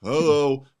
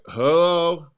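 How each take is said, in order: First: Dull, lifeless hello; mock a bored phone greeting; boring hello. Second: A flat, dragging hello; bored hello. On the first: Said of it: "But if you're just like". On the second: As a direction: answer the phone like you don't care. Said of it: "If they hear you like". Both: Shown as a demonstration.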